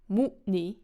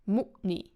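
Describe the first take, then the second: First: The stress is on the first syllable. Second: The stress is on the first syllable.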